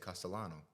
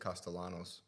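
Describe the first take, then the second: First: The name ends without an s sound. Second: The name ends with an s sound. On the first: The speaker is among Italians. "all of a sudden I won't say the S" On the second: The listener is American. "I'm talking to somebody that is American, I'll just say Castellanos"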